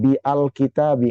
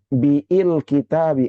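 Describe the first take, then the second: First: A separate 'a' syllable is pronounced before 'l'. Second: The vowel after 'b' is drawn out long. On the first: "dibaca dengan bi al kitabi? Enggak" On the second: "Apakah dibaca dengan biil kitabi? Enggak"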